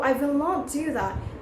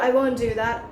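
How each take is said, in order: First: The negative is said as two full words. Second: The negative is contracted to one syllable. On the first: The speaker calls it wrong. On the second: The speaker calls it right.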